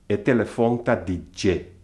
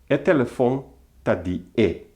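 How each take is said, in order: First: The last word begins with a 'j' sound. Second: The last word is a plain 'e' vowel. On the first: The speaker calls it right. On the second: The speaker calls it wrong.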